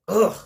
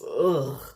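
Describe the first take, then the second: First: It sounds grouchy and angry. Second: It sounds sad and whiny. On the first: The character truly hates the holiday. The speaker calls it right. "He's supposed to be grouchy and grumpy and mad" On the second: The character is pitiful rather than mean. The speaker calls it wrong. "He sounds so sad and pathetic"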